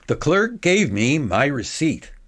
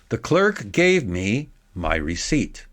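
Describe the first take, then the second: First: It is read quickly without a long pause. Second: It is read slowly with a long pause. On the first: "let me read this at a higher speed" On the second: "I made a big pause"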